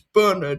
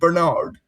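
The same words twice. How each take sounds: First: The name is said with a British English pronunciation. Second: The name is said with an American English pronunciation. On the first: "if we're doing English pronunciations, it's Bernard" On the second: "rather than"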